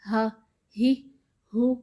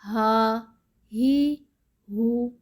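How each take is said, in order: First: ہا، ہی، ہو each cut off with a sharp jerk; jerked, wrong way. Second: ہا، ہی، ہو read smoothly without a jerk or drawing out; soft, no jerk. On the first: Teacher demonstrating the wrong jerky reading to pupils, clipped. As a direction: snap each syllable short, the wrong way. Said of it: "ایسے نہیں پڑھنا". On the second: Teacher showing pupils the correct smooth reading, soft. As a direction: let each syllable flow gently. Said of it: "نرمی کے ساتھ پڑھیں گے". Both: Shown as a demonstration.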